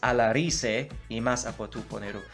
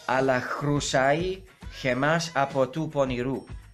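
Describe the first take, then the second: First: It uses modern Greek sound values. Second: It uses reconstructed ancient Greek sound values. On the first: "where in modern Greek it's" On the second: "it's ala chrusai in, in ancient Greek"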